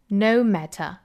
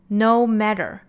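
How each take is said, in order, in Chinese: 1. 这是英式口音。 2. 这是美式口音。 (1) "这句话英式我们再来读一下" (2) "下面我们看美式发音呢"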